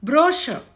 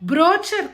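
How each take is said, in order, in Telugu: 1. మధ్య హల్లు 'sh' శబ్దం. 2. మధ్య హల్లు 'ch' శబ్దం. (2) "బ్రోచర్ కాదు"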